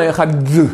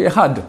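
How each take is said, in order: First: Ehad with a separate deux tacked on at the end; wrong Ehad deux. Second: Ehad said in one piece, short final d; correct Ehad. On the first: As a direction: split the d off Ehad like the word deux. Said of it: "c'est faux". (Ehad deux, prononciation fautive) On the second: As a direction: keep Ehad whole, no added deux. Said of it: "On ne dit pas Ehad deux". (Ehad correct, d final bref) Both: Shown as a demonstration.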